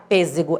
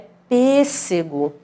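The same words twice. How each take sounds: First: The middle consonant is a buzzing Z sound. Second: The middle consonant is a hissing S sound. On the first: The speaker calls it wrong. "Porque se eu colocar só um, vai ficar" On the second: The speaker calls it right. "Não, é"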